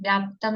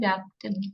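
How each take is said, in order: First: The word ends in 'aptam' with no 'i' vowel. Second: The word ends in 'aptim' with an 'i' vowel. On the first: The speaker calls it wrong. "व्याप्तम नहीं" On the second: The speaker calls it right. "व्याप्तिम अपाकृत्य है"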